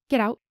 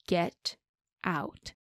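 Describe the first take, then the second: First: A snarled order, louder than before. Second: Cold and dangerous. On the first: Woman ordering the intruder out of her bedroom, snarling. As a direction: snarl it at him like a cornered animal. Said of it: "Janir snarled". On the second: Woman coldly ordering the man out after slapping him. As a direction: say it quietly, as a final warning. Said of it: "her tone was cold, dangerous". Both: Acted.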